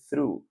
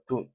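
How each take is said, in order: First: The word begins with a th sound. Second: The word begins with a plain t sound. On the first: The speaker calls it right. "a pronúncia correta é through" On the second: The speaker calls it wrong. "que ele está falando to"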